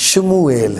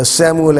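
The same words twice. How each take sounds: First: شموئیل with sh in place of s, shmoo-el; شموئیل starting on a clear sh; Hebrew pronunciation. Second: سیموئل with a plain s sound, see-mo-el; سیموئل said the Urdu Bible way with s; Urdu pronunciation. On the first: Teacher contrasts the Hebrew شموئیل for viewers, with sh. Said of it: "شین کی آواز الفاظ میں ملے گی". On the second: Teacher shows viewers the Urdu form سیموئل, starting with s. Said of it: "جہاں پر آپ کو سین کی آواز ملے". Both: Shown as a demonstration.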